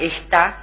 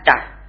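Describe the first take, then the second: First: The initial unstressed vowel is fully pronounced. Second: The initial unstressed vowel is dropped entirely. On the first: "la E en sílaba inicial átona, en la que se produce reducción y oscurecimiento" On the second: "pasa a"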